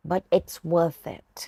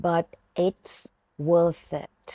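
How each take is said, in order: First: Said in the usual way. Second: "But it's" rising, pause, "worth it" falling; in two chunks. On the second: Shown as a demonstration. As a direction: break it after "But it's". (แบ่งเป็นสองช่วง "But it's" เสียงขึ้น แล้ว "worth it" เสียงลง) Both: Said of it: "ฝึกฟังแล้วออกเสียงตามครูหนุนนะคะ".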